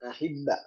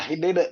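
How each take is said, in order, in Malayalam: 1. b ഇരട്ടിച്ചതാണ്, സ്വരാക്ഷരത്തിൽ അവസാനിക്കുന്നു. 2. b ഇരട്ടിച്ചിട്ടില്ല; അത് b യിൽ അവസാനിക്കുന്നു. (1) "അഹിബ്ബ എന്നാണ് ശ്രദ്ധ കൊടുത്ത് വരുമ്പോഴത്തേക്ക് കൽപ്പന വരുന്നത്" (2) "ശ്രദ്ധയില്ലാതെ പറഞ്ഞ അഹിബിബ് എന്ന് പറയും"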